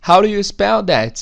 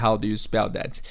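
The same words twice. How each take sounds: First: The word "do" is reduced to a quick "ru". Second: The word "do" is said fully and clearly.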